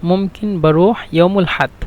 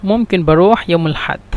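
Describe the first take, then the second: No difference in how they are said.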